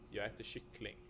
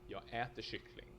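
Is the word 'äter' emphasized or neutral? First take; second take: neutral; emphasized. First: It is said with neutral, natural stress. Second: The word äter is given extra emphasis.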